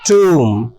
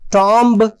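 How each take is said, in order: First: Long oo vowel with the final b silent. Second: Short o vowel with the final b pronounced. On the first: The speaker calls it right. "बल्कि इसको पढ़ा जाना चाहिए टूम" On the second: The speaker calls it wrong. "टॉम्ब नहीं"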